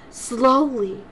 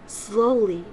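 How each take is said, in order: Both takes have the same delivery.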